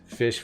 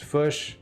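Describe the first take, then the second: First: The vowel sounds like an 'i'. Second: The vowel sounds like a 'u'.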